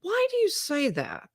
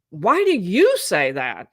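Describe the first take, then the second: First: High, softer, curious questioning. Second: "you" stretched and emphasized, slower pace; stress on YOU. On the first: Husband on jail call questions his wife's denial, curious. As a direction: ask it lightly, pitched well up, puzzled. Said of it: "it's more curious, like". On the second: Wife returns husband's question to him, stress on "you". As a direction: throw it back, leaning slowly on "you". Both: Retold or imitated.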